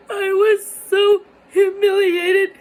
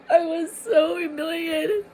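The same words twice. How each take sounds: First: Higher, louder, voice breaking into tears; crying. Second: Said in the usual way. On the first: Real, not acted. Telling viewers about being left alone, crying with a higher, louder voice. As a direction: let it crack as you cry it out.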